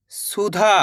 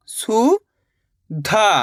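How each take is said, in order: First: Said in the usual way. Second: सुधा split as rising सु, pause, धा; syllable by syllable. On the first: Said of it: "इनको आपस में लगा पढ़ना है". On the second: Shown as a demonstration. Teacher teaching how to read, सुधा broken into syllables. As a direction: sound out सुधा in two separate pieces. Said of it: "एक अक्षर का उच्चारण करके".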